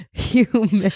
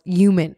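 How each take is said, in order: First: "human" with an audible soft H first; soft breathed H. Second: "Human" said as "yooman", no H; dropped H. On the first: Shown as a demonstration. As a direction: demonstrate "human" starting on a breathy H. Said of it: "The, a soft". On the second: Retold or imitated. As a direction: imitate "Human" with the H missing. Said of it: "that's Y O U M A N".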